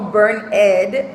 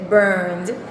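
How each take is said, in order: First: The ending is said as a separate syllable. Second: The ending is joined to the word as one syllable. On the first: The speaker calls it wrong. "no burn ed" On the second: The speaker calls it right. "se pronuncia burned"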